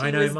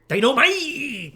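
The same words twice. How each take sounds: First: It is said flatly, without enthusiasm. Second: It is said with lively enthusiasm.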